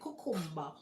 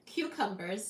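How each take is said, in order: First: It is said with a Jamaican pronunciation. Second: It is said with an American pronunciation.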